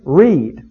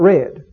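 First: The vowel is long, like in 'reed'. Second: The vowel is short, like in 'red'. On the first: It is read in the present. The speaker calls it right. "You always live in the present tense" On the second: It was read once in the past. The speaker calls it wrong. "Thank God if you've read"

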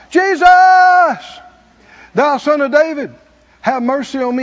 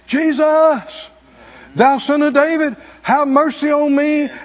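First: It is said louder, as a stronger cry. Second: It is said at a normal, quieter volume.

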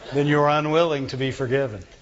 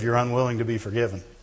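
First: It is said warmly, with a smiling voice. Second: It is said bluntly, with no softening. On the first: The hard truth is softened to go down easier. "can I say it with a smile and make it taste better?" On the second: The hard truth is stated plainly. "that was pretty straight"

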